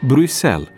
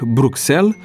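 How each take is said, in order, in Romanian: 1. X se pronunță ca un s simplu. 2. X se pronunță ks. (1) "de fapt pronunția corectă este Bruxelles" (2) "pe care atât de mulți o rostesc Bruxelles"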